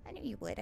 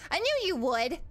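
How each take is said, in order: First: Low, soft, confiding repeat; much softer and lower, tucked under the cheer; quiet aside. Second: Louder, lively "I told you so" to supporters; energetic, emphatic praise; proud cheer. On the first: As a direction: drop down to a private murmur of belief. Same words repeated as soft aside. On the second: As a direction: cheer them on with full belief. Cheering on chat, first take. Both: Real, not acted.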